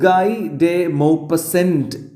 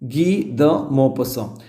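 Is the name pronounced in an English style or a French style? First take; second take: English; French. First: The name is read with English-style sounds. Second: The name is said with French sounds. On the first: The speaker calls it wrong. "എന്ന് വായിക്കാൻ തോന്നും" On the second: The speaker calls it right. "ഇയാളുടെ യഥാർത്ഥ ഉച്ചാരണം വരുന്നത്"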